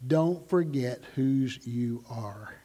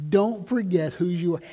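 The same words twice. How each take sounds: First: Slow, soft and low, like a mother at the door; tender reminder. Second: Said in the usual way. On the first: Retold or imitated. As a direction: say it gently to your child as they leave. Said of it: "she'd say".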